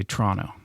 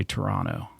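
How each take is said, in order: First: "Toronto" squashed to "Tronno"; two-syllable "Toronto", TR run together; local Toronto pronunciation. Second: Said in the usual way. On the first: Shown as a demonstration. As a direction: say "Toronto" without the first vowel, TRON-no. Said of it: "You say Toronto". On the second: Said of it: "You don't say Toronto".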